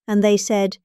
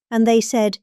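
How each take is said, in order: Both takes have the same delivery.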